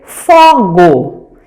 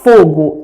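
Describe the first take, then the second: First: The first vowel is an open o. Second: The first vowel is a closed o. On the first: The speaker calls it wrong. "a criança aprende que as vogais têm apenas os sons abertos" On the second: The speaker calls it right. "o O vai ter o som fechado"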